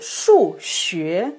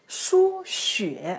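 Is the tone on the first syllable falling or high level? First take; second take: falling; high level. First: First syllable falling, second syllable rising. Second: First syllable high level, second syllable dipping. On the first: It means mathematics. "le quatrième ton shu, le deuxième ton xue" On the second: It means blood transfusion. "le premier ton shu, le troisième ton xue"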